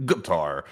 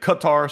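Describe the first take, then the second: First: Qatar said as "guh-TAR"; Qatar with a G sound. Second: Qatar said as "kuh-TAR"; Qatar with a K sound. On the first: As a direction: say Qatar starting like "gut". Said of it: "some people say Qatar". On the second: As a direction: open Qatar with a hard, puffed K, "kuh-TAR". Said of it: "however you wanna say it. Qatar, some people say". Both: Shown as a demonstration.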